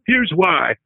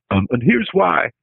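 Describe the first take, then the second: First: Higher-pitched take on Clinton; a hint of Bill Clinton; Clinton impression. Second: Slow, higher folksy politician line; a quick stab at Bill Clinton; lightly voiced Clinton, barely an accent; Clinton impersonation. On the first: Shown as a demonstration. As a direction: do your one Clinton line, pitched up. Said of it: "but I can do". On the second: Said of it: "which is my Clinton impersonation".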